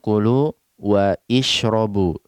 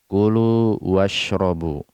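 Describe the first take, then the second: First: An extra 'i' vowel is pronounced before 'shrobu'. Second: 'Wa' runs straight into 'shrobu' without a vowel. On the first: The speaker calls it wrong. "Kita tidak mengatakan kulu wa ishrobu" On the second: The speaker calls it right. "tapi kita jatuhkan hamzah wasal dari pelafalan washrobu"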